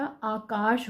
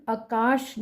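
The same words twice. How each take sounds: First: आकाश slowly, with a long opening आ; correct long vowel. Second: आकाश begun with a short अ, as akaash; wrong short vowel. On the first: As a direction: stretch the first vowel of आकाश. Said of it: "आकाश होता है". (आकाश का पहला 'आ' लंबा) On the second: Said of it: "आकाश नहीं होता". (आकाश का पहला स्वर छोटा 'अ') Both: Shown as a demonstration.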